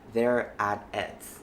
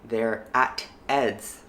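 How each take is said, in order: First: The T in 'at' is a soft flap. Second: The T in 'at' is a clear T. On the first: "The T in the at gets flapped" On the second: "Instead of saying"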